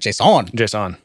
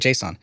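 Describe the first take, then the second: First: The stress is on the second syllable. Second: The stress is on the first syllable. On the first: "they were emphasizing the on" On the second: "I used to have a natural way of saying"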